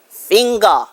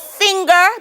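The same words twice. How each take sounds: First: The word ends in an ah sound. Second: The word ends in an er sound.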